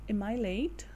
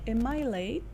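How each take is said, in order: Both takes have the same delivery.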